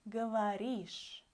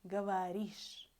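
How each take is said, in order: No difference in how they are said.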